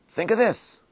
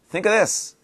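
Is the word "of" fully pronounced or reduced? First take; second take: reduced; reduced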